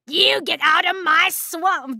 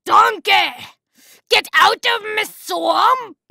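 First: Loud, higher attempt at a Scottish accent; badly faked Scottish ogre shout; awful Scottish accent. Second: Put-on loud, high Scottish-accented bellow; full-force mock Scottish shout, dragged out; Scottish ogre accent. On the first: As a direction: try a Scottish accent and miss. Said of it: "That's an awful Scottish accent". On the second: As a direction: roar it in a hammed-up Scottish accent. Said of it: "I say donkey to get into it".

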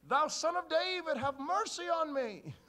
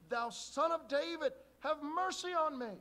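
First: Loud high drawn-out plea; crying from afar. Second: Loud high slow plea; crying out. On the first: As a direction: call out from the distance, slow and loud. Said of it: "they hear from the distance". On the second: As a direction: beg loudly from the roadside. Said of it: "But he cried the great deal". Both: Acted.

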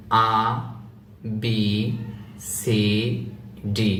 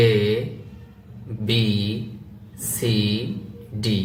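First: আ said as open "aa", then B, C, D; alphabet with A as "aa". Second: এ said as "e", then B, C, D; alphabet with A as "e". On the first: Teacher reciting A B C D with the "aa" variant. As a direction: start with আ like Bengali aa. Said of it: "যদি আপনি এভাবে বলেন". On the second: Teacher reciting A B C D with the "e" variant. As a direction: start with এ, clear short "e". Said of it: "আবার যদি আপনি এভাবে বলেন". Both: Shown as a demonstration.

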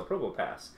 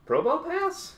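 First: Probopass said low and soft, falling; settled statement. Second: PROBOPASS rising high, as a question. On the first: Unboxer confirming a card name, settled fall on Probopass. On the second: Unboxer unsure of a card name, questioning rise on Probopass. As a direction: ask "Probopass" unsurely, pitch climbing at the end. Unsure reading, confirms after. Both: Real, not acted.

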